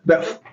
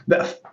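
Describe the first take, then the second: First: It is said imitating a Western accent. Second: The same.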